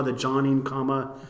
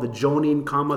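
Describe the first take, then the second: First: "Jonim" with an open O, as in John; alternative pronunciation. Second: "Jonim" with a long O, as in Joan; unsure pronunciation. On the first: Host offering a second try at the term, "Jonim" with open O. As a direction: say "Jonim" as JAH-neen. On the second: Host trying a term he is unsure of, "Jonim" with long O. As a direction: say "Jonim" as JOE-neen. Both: Shown as a demonstration. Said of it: "Not exactly sure how to pronounce that".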